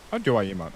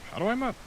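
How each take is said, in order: First: Said in the usual way. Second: Squeaky, much higher mock question; silly high voice. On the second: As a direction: pipe it up high and goofy.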